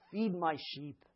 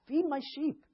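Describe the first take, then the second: First: Said in the usual way. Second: Much higher, urgent repeat; emphatic command. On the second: Retold or imitated. Jesus urging Peter to feed his sheep, emphatic. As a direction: press the charge home.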